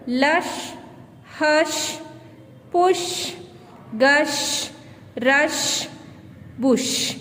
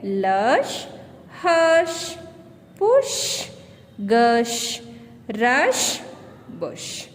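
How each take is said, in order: First: "Lush, hush, push, gush, rush, bush" each word said slowly and separately, ending on a clear sh; model pronunciation. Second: "lush, hush, push, gush, rush, bush" again, the sh drawn out at each end; repeated pronunciation drill. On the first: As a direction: read the word list for the class to repeat. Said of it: "Listen to your teacher as she pronounces these words". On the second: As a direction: drill the sh ending word by word, pitch jumping around. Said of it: "the sound of shoe here". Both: Shown as a demonstration.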